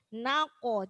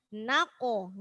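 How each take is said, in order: No difference in how they are said.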